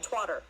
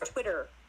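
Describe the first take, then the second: First: The first vowel is an 'a' sound. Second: The first vowel is a short 'i' sound. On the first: The speaker calls it wrong. "not twatter" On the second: The speaker calls it right. "It's Twitter"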